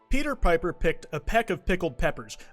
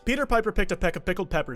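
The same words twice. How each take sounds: First: It is said at a normal pace. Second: It is said fast.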